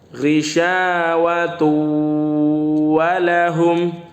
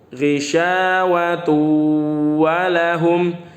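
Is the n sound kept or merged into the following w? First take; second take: merged; merged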